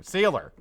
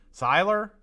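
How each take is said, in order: First: SEALER said with a long "ee", like "seeler"; mispronounced name. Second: SEILER said as "SIGH-ler", tried out as a guess; corrected name pronunciation. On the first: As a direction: say "Sealer" with SEE as the first syllable. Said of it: "it's not Sealer". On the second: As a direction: say "Seiler" with a long "eye" vowel. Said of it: "I think that's probably it". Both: Shown as a demonstration.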